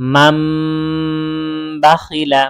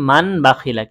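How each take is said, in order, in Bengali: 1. প্রথম শব্দটি m ধ্বনি দিয়ে শেষ হয়েছে। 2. প্রথম শব্দটি n ধ্বনি দিয়ে শেষ হয়েছে। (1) "মান না পড়ে আমরা পড়ব হচ্ছে মাম বাখিলা" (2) "এই মূল শব্দ হচ্ছে মান বাখিলা"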